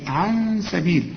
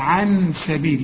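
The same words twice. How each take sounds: First: The n is hidden in a nasal hum. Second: The n is pronounced fully with the tongue. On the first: The speaker calls it right. "لا عن سبيل، أمال اسمه إخفاء ليه؟" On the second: The speaker calls it wrong. "ما تخليش لسانك يضرب في حلق بقك وتقول عن سبيل"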